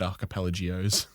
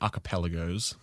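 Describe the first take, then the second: First: The word ends with an extra 'ee' before 'os'. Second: The word ends in a plain 'gos' sound. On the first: The speaker calls it wrong. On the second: The speaker calls it right.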